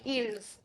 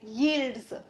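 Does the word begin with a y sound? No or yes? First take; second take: no; yes. First: The word starts without a y sound. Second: The word starts with a clear y sound. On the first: The speaker calls it right. "वाई को बोलना नहीं है, it is silent" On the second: The speaker calls it wrong. "We are not saying it यील्ड्स"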